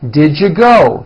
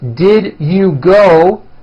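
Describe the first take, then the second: First: The words are squeezed into a reduced form. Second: Each word is said fully and separately.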